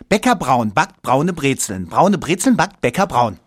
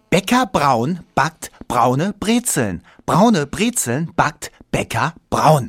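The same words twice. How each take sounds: First: It is said very fast. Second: It is said at a normal pace.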